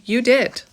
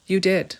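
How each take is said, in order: First: You DID, with DID hit high and loud; emphatic reassurance. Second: Softer repeat. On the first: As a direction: land the word did hard and sure. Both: Shown as a demonstration. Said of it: "Did I do the right thing?".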